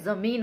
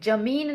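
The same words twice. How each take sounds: First: The word begins with a 'z' sound. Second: The word begins with a 'j' sound. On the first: The speaker calls it right. "जमीन होता है" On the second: The speaker calls it wrong. "जमीन नहीं होता है"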